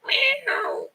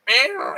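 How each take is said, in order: First: Said in the usual way. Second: High cat meow. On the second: Shown as a demonstration. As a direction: meow pitched much higher, straining. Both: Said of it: "I still can't do high-pitched noises like meow".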